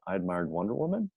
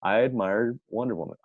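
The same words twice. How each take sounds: First: "I admired Wonder Woman?" with a clear rise on Woman; question inflection. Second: Said in the usual way. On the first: Shown as a demonstration. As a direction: ask it, pitch climbing at the end of "Woman". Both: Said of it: "put a question mark on the end".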